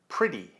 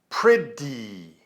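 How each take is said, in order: First: The middle consonant is a very light tap. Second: The middle consonant is heavy and strong. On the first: The speaker calls it right. "This D sound is very light" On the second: The speaker calls it wrong. "I'm not saying pretty"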